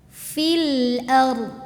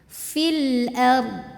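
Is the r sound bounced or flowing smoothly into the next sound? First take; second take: flowing; flowing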